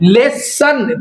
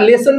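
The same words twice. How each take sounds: First: The s sound is doubled and held long. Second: The s sound is single and short. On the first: The speaker calls it wrong. "লেসন পড়ছি না" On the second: The speaker calls it right. "লেসন পড়ছি"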